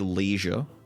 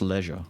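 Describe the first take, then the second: First: The first vowel sounds like 'lee'. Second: The first vowel sounds like 'leh'. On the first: The speaker calls it wrong. "I'm not going to say leisure" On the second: The speaker calls it right. "It's leisure. Because it rhymes with pleasure"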